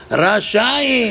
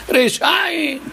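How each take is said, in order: First: Rachaim with a clear A, meaning merciful. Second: Rechaim with an E, heard as wicked. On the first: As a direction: say Rachaim, ra-cha-im, not Rechaim. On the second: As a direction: say Rechaim, re-sha-im, not Rachaim. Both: Shown as a demonstration. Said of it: "Et l'autre, il a compris quoi?".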